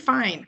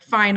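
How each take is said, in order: First: It is said in a calm, accepting tone. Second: It is said in a curt, passive-aggressive tone. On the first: The speaker is genuinely okay and letting it go. "Now, okay, fine" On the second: The speaker is still angry. "passive aggressive, like, fine, I'm still mad thing"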